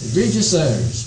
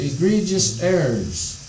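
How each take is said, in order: First: The opening E sound is clearly pronounced. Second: The opening E sound is dropped or unclear. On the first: The speaker calls it right. "You pronounce the first E" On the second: The speaker calls it wrong. "I pronounced it incorrectly"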